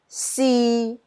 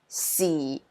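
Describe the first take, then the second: First: It is said with Cantonese tone three. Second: It is said with Cantonese tone four.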